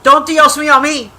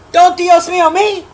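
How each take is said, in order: First: Said in the usual way. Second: "Don't Dios mío me" pitched up high in a mock-indignant voice; mock scolding, higher. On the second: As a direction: throw "Dios mío" back at her, high and sassy. Repeats the phrase in two voices.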